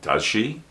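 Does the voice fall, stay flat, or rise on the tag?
rise. The pitch rises at the end. The speaker is not sure of the answer. "The voice goes up"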